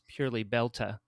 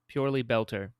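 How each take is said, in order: First: The word ends with an 'ah' sound. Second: The word ends with an 'er' sound. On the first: This is how the slang is said. "because it's slang, it's purely Belta" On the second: This is how the word is written. "Technically, if you wrote it out"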